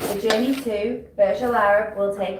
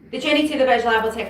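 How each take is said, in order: First: It is spoken at a moderate pace. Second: It is spoken very quickly. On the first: The listener understands and it sounds confident. The speaker calls it right. "It is a good speed" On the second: The listener cannot follow it. The speaker calls it wrong. "It's too fast"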